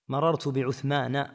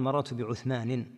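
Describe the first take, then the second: First: The name ends without an added n sound. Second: The name ends with an added n sound. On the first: The speaker calls it right. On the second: The speaker calls it wrong.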